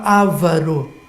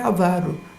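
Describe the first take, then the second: First: The stress is on the first syllable. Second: The stress is on the second syllable. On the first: The speaker calls it wrong. "a pessoa antecipa o acento" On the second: The speaker calls it right. "a palavra certa é avaro"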